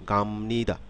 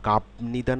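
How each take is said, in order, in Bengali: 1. 'ni' এর আগে একটি ম ধ্বনি আসে। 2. 'ni' এর আগে একটি ব ধ্বনি আসে। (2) "গাবনিদা না হয়ে"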